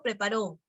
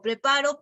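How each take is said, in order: First: "preparó" hit on the last syllable; stress on RÓ of preparó. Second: "preparo" hit on the middle syllable; stress on PA of preparo. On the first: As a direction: lean on RÓ in "preparó". (acento final en RÓ de «preparó») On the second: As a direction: lean on PA in "preparo". (acento en PA de «preparo») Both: Shown as a demonstration. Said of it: "el acento cumple función distintiva".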